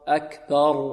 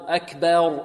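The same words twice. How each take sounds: First: The vowel after b is a plain open a. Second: The vowel after b is tilted toward e. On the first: The speaker calls it right. "بدون تفخيم وبدون إمالة" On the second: The speaker calls it wrong. "فيميل فتحة الباء، وهذا خطأ"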